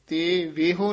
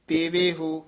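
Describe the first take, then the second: First: The break comes after 'te', before 'veho'. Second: The break comes after 'teve', before 'ho'. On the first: The speaker calls it wrong. "ਤੇ ਵੇਹੋ ਨਹੀਂ ਕਹਿਣਾ" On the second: The speaker calls it right. "ਇਹ ਫਲ ਤੇਵੇ ਹੋ ਉਚਾਰਨ ਕਰਨਾ"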